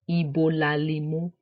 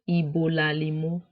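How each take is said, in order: First: The final vowel drops and the words run together. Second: The same.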